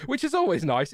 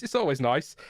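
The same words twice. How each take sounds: First: Words bubbling through a laugh. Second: Said in the usual way. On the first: Real, not acted. Streamer chuckling about a free PC, laughing. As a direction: still chuckling as he says it.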